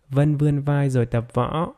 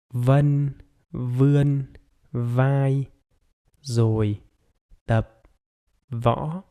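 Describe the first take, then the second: First: The sentence is spoken at normal speed. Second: The sentence is spoken very slowly.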